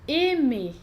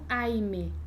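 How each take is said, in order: First: The first vowel is a plain 'e' sound. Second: The first vowel is an 'ai' glide. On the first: The speaker calls it right. "a gente vai dizer" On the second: The speaker calls it wrong. "e não"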